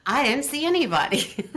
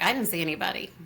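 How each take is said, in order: First: Higher and louder, protesting denial; insistent denial. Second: Said in the usual way. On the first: Retold or imitated. Caught by the teacher, she insists louder and higher. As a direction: deny it harder, pushing back.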